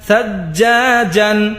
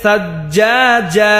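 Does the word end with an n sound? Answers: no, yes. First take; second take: yes; no. First: The word ends with an n sound. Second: The word ends on a vowel, no n. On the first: The reader continues without stopping. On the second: The reader stops at this word.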